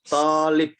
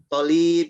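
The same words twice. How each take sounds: First: The vowel of the first syllable is long. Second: The vowel of the second syllable is long. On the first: The speaker calls it right. "yang panjang harus tolib" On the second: The speaker calls it wrong. "Ada yang baca tolib gitu salah ya"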